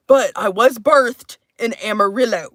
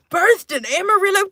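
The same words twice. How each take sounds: First: Said in the usual way. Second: Pitched high, playful proclamation; hammed-up repeat. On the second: Streamer declaring Texas birthplace, high and hammed-up. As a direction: announce it high, playing it up.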